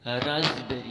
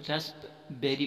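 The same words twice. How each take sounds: First: "रास्पबेरी" loud, as raz-beri with Z for SP; correct pronunciation. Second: "रसबेरी" with the P sounded, rasp-beri; wrong pronunciation. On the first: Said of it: "जे की आवाज़ आएगा". ("रास्पबेरी" को "राज़बेरी") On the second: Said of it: "जो कि गलत है". ("रसबेरी" में "प" बोलकर) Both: Shown as a demonstration.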